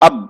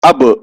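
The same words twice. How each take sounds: First: The final b is stopped with no release. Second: The final b bounces with an echoing release. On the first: The speaker calls it wrong. "यहां पे रुक जाएं, अब गलत" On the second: The speaker calls it right. "टक्कर खाकर अलग हो जाए तब सही होगा"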